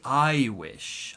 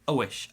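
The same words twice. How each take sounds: First: The word 'I' has a full vowel sound. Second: The word 'I' is reduced to 'uh'. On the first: The speaker calls it wrong. "I don't say I wish" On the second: The speaker calls it right. "I say I wish, ... kind of a uh, uh sound"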